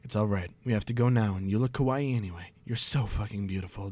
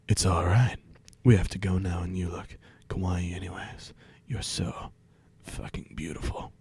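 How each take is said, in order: First: It is read in a plain, normal voice. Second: It is read in a put-on sexy voice.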